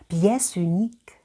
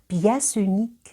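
First: The final consonant links into the next word. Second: The same.

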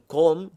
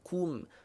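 First: The vowel sounds like an open o. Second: The vowel sounds like a rounded u. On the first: The speaker calls it wrong. "Jangan kom" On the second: The speaker calls it right. "Kena kum"

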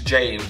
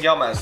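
First: The name is said with English pronunciation. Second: The name is said with Estonian pronunciation. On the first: The speaker calls it right. "It's James, of course" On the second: The speaker calls it wrong. "that's an Estonian pronunciation"

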